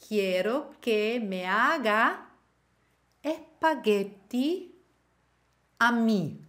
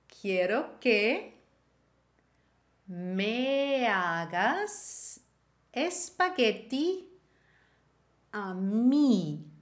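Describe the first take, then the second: First: The final s of hagas is dropped. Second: The final s of hagas is pronounced.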